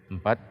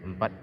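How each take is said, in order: The two takes are said the same way.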